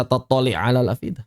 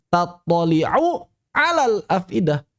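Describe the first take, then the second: First: "tattali' alal afidah" with the u dropped after tattali'; bacaan salah. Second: "Tattali'u alal afidah" with the final u of Tattali'u voiced; bacaan benar. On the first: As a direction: run "tattali'" straight into "alal" without a vowel. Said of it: "Jangan dibaca". (lafalkan "tattali' alal" tanpa harakat u, diidghamkan) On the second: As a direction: recite "Tattali'u" slowly with its u, unmerged. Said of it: "Jangan dibaca tattali' alal afidah". (lafalkan "Tattali'u alal" dengan harakat u, tanpa idgham) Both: Shown as a demonstration.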